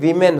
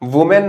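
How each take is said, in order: First: The first vowel sounds like 'ee'. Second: The first vowel sounds like 'oo'. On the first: The speaker calls it right. "ये वीमेन होता है" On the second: The speaker calls it wrong. "वुमेन नहीं होता"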